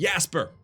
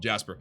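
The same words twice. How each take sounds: First: The name begins with a Y sound. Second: The name begins with a J sound. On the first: This is the European way of saying it. "it actually should be Jasper" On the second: This is the American way of saying it. "I'm American, so I make up my own rules"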